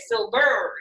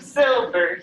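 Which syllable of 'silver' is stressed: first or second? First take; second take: second; first. First: The stress is on the second syllable. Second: The stress is on the first syllable. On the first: The speaker calls it wrong. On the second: The speaker calls it right.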